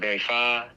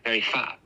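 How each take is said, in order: First: The word ends with an open, unclosed vowel. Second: The word ends abruptly with a glottal stop. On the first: The speaker calls it right. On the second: The speaker calls it wrong.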